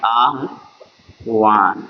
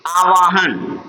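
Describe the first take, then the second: First: आह्वान said very slowly and low, sounding the written spelling; written spelling form. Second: आवाहन read at normal pace as aa-vaa-han; spoken reading form. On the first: Teacher sounding the written spelling for students. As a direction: stretch आह्वान out as it is written, a-h-vaan. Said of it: "वह होता है आह्वान लिखा जाता है". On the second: Teacher giving students the spoken form. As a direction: say आवाहन the way it is read aloud, with an inserted a. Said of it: "जिसको आवाहन पढ़ते हैं हम लोग". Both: Shown as a demonstration.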